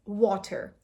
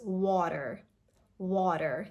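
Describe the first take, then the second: First: "water" with a crisp, hard T; "water" as wa-TER, T fully sounded; crisp-T pronunciation. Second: "water" slowly, T as a very soft D; "water" with a light flapped T; American flap T. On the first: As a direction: say "water" with a clearly released T sound. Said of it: "how you usually pronounce it". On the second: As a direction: say "water" like a soft "wah-der". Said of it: "it's a very soft duh sound". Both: Shown as a demonstration.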